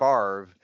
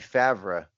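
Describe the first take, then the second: First: The R sound comes before the V. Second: The R sound comes after the V. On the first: The speaker calls it wrong. "and not ... The R is not before the V" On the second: The speaker calls it right. "which should be"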